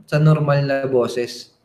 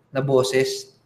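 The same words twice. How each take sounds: First: "normal" leaned on, the whole phrase slowed; slow emphasis on normal. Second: Said in the usual way. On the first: Shown as a demonstration. Coach repeating it to listeners, stress on "normal".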